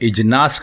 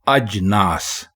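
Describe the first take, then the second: First: The word begins with an 'i' vowel. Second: The word begins with an 'a' vowel. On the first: The speaker calls it wrong. "अगर आप इसको इजनास कहेंगे तो गलत कहेंगे" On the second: The speaker calls it right. "बोलें अजनास तो ये दुरुस्त होगा"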